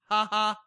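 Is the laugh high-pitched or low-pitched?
low-pitched. It is a lower laugh without the high pitch.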